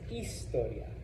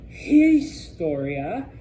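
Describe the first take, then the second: First: The word begins directly with the vowel sound. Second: The word begins with an audible H sound. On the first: The speaker calls it right. "it's historia. Okay? No H" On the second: The speaker calls it wrong. "not historia"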